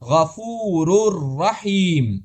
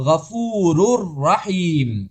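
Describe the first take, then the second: First: The n is fully merged into the r. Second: The n is fully merged into the r.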